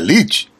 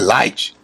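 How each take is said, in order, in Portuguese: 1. A vogal é dita como 'ee', como se escreve. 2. A vogal é dita como 'eye', como em inglês. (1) "Mas não é Lite" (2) "o I tem um som de A"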